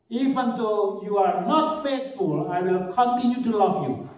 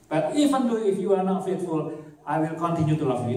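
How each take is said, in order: First: Higher, very slow, lightly voiced promise; mock quote. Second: Said in the usual way. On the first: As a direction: act out the faithful lover slowly.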